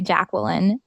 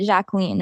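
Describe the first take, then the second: First: The name is pronounced with English sounds. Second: The name is pronounced with French sounds. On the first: "I pronounce it just the English way" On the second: "That's the French way to pronounce it"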